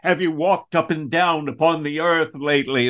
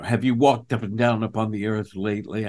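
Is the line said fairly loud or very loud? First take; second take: very loud; fairly loud. First: It is said even more loudly. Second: It is said fairly loudly. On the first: The stakes are raised even higher. "The stakes aren't high enough" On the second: The stakes are raised. "raising the stakes always meant I was talking louder"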